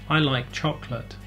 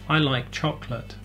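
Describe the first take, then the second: Both takes have the same delivery.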